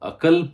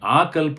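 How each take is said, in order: First: The first vowel is short. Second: The first vowel is long. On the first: The speaker calls it right. "हें अकल्प जावंक" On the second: The speaker calls it wrong. "हें आकल्प न्हय"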